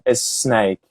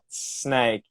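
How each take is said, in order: First: An extra vowel sound comes before the S. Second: It starts directly with the sn cluster. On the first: The speaker calls it wrong. "They do the es snake" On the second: The speaker calls it right. "not making a vowel sound before the S"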